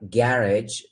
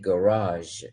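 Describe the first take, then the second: First: It is said with a British pronunciation. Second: It is said with an American pronunciation. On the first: "they say uh, garage" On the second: "we say garage"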